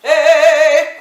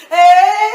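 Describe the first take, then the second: First: High, very loud belted call; belting. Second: Very loud, higher belt that breaks; belt giving way. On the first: Voice teacher demonstrating for a class how people belt, belted shout. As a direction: belt it out with full throat tension. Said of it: "people who like to belt". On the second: Voice teacher showing a belter hitting her limit, breaking belt. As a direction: belt high until the voice flips and gives out. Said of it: "all of a sudden it goes". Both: Shown as a demonstration.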